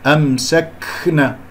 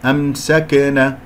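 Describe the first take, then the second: First: The k sound has a heavy rush of breath. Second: The k sound is released with a bounce. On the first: "بالغت في الهمس وهذا خطأ" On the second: "قلقلتها وهذا خطأ"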